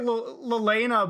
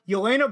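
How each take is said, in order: First: The name begins with an L sound. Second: The name begins with a Y sound. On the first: The speaker calls it wrong. "I automatically want to put an L to it" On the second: The speaker calls it right. "That's how you pronounce her name"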